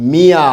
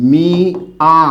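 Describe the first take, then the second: First: Said in the usual way. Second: মিয়া, the y sound gently nasal; nasalised demo. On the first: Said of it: "শব্দটা কি লিখছি". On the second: Shown as a demonstration. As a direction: model মিয়া carefully. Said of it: "এখানে অন্তস্থ চন্দ্রবিন্দু হবে".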